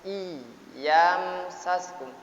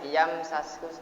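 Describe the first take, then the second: First: The doubled y is held and pressed. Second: The doubled y is short and unpressed. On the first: The speaker calls it right. "harus ada ada penekanan" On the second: The speaker calls it wrong. "tidak boleh"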